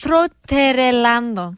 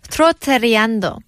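First: The double L is said as an L sound. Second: The double L is said as a Y sound. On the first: The speaker calls it right. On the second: The speaker calls it wrong.

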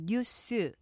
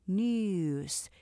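First: The vowel is short, with an added final syllable. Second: The vowel is drawn out long. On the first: The speaker calls it wrong. "우리가 뉴스 이렇게 이음절로 발음하지만" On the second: The speaker calls it right. "news 이음절 길게 발음하시면 정확하게"

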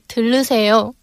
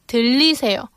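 First: The second syllable has the vowel eu. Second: The second syllable has the vowel i. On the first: The speaker calls it right. "please come by, you can say 들르세요" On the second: The speaker calls it wrong. "Koreans often pronounce this word as 들리다"

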